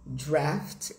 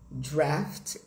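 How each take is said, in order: First: The vowel is an open American 'a' sound. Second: The vowel is an open American 'a' sound.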